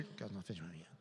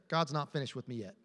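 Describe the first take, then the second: First: Barely audible, much softer mumble; mumbled under breath. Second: Said in the usual way. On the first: Shown as a demonstration. Pastor shows the congregation how to mumble it, very soft. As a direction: murmur it to yourself under your breath. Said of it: "Just go mumble under". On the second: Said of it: "Just say".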